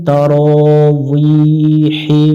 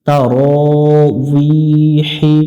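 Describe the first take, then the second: The two takes are said the same way.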